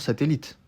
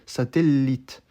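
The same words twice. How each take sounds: First: The L in the middle is short. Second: The L in the middle is held long. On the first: This is the usual everyday pronunciation. "tout le monde dit normalement satellite, sans insister sur une lettre" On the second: It shows the word is spelled with a double letter. "Pour montrer qu'il y avait deux L dans satellite, il disait satellite"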